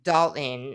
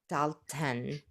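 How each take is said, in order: First: The middle T is softened, not clearly released. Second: The middle T is crisply and clearly released. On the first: "in like the true American accent" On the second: "she pronounces the T so conspicuously"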